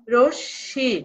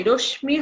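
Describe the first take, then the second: First: রশ্মি said "roshshi", ম silent and শ doubled; correct pronunciation. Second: রশ্মি said "roshmi" with ম sounded; wrong pronunciation. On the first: Teacher giving the right রশ্মি. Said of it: "এর উচ্চারণ হবে". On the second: Teacher showing the wrong রশ্মি. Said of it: "রশ্মি হবে না". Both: Shown as a demonstration.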